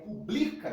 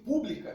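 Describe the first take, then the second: First: The stress is on the second syllable. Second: The stress is on the first syllable. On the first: It is the verb meaning publishes. "Mas aqui é publica, então essa aqui é a mais forte. Essa é uma paroxítona" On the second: It is the adjective meaning public. "Se fosse pública, teria acento"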